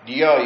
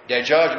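First: The j sounds are replaced by y sounds. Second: The word is said with a j sound. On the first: This is how some local dialect speakers say it. "بعضهم يقلبون الجيم إلى ياء" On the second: This is the standard form of the word. "يقولون دجاج من دياي"

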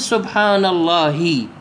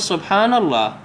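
First: The last word ends with an 'i' vowel. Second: The last word ends on a bare consonant. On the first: The speaker calls it wrong. "لا تقول سبحان الله بالكسر" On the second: The speaker calls it right. "لما تقف على لفظة الله اقف على ساكن"

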